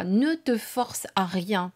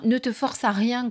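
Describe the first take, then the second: First: Slow, each word weighed; slow it down and insist gently; slow, insistent. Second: Said in the usual way. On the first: Shown as a demonstration.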